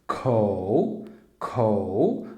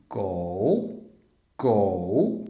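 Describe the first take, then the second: First: "co" with a strong puff of air after the k; aspirated co. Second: "go" with a hard k sound and no breath; unaspirated go. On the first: Teacher demonstrating the aspirated "co" to learners. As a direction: blow air out on the k of "co". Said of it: "porém desta vez assoprado". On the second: Teacher demonstrating the unaspirated "go" to learners. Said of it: "como se fosse som de C". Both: Shown as a demonstration.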